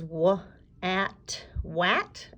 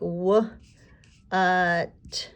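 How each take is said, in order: First: The vowel sounds like the 'a' in 'at'. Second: The vowel sounds like a short 'uh'. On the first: The speaker calls it wrong. "This word goes w, at, wat" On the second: The speaker calls it right. "Or is it going to sound like w, uh, t?"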